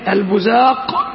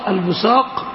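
First: The middle consonant is a z sound. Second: The middle consonant is an emphatic s sound. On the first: "والثانية بالزاي" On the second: "الأولى بالصاد"

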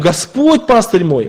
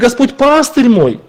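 First: The stress falls on the word Господь. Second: The stress falls on the word пастырь. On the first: It is the Lord and no one else who is the shepherd. "именно Господь, а не кто-то пастырь наш" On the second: He is a shepherd rather than a judge or tormentor. "Он пастырь наш, а не судья"

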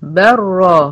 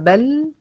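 First: The l is merged into r, sounding bar. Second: The final l is clearly pronounced, sounding bal. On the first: "ما بنطقش لام خالص" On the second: "هي أصلها بل"

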